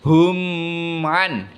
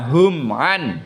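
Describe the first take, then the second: First: The m sound is held long and nasal. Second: The m sound is short and clipped. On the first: The speaker calls it wrong. "tidak boleh hum an" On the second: The speaker calls it right. "baca pendek"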